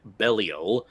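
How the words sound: The name is said with a Japanese pronunciation.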